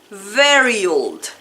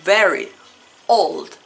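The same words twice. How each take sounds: First: The two words run together without a break. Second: The two words are said apart with a break. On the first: The speaker calls it right. "el sonido correcto será very old" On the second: The speaker calls it wrong. "como si fueran palabras aisladas"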